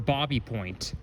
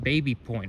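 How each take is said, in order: First: The first word is said like 'bobby'. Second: The first word is said like 'baby'. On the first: The speaker calls it right. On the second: The speaker calls it wrong.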